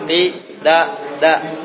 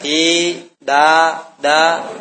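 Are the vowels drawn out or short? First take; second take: short; drawn out. First: Each vowel is kept short. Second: Each vowel is drawn out long. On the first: The speaker calls it right. "Biasakan kalau pendek berarti satu harokat" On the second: The speaker calls it wrong.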